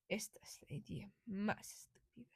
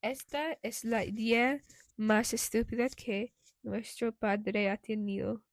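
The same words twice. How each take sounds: First: Hushed, breathless Spanish grumble; whispering. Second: Plain-voiced grumble in Spanish. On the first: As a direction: whisper it under your breath. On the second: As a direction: grumble it out loud. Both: A narrator's reading.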